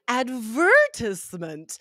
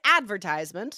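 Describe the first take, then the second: First: The stress is on the second syllable. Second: The stress is not on the second syllable. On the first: "the stress on the second syllable" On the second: "U S advertisement"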